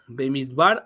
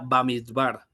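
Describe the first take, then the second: First: The first vowel sounds like 'e'. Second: The first vowel sounds like 'a'. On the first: "se llama Bemidbar" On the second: "en algunas otras fuentes dice que se pronuncia Bamidbar"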